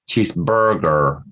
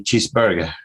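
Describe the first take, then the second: First: The word is said carefully, with deliberate effort. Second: The word is said casually, without extra care. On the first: "if I want to sound better, I will try to say cheeseburger" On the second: "if I don't think about it, I, I say cheeseburger"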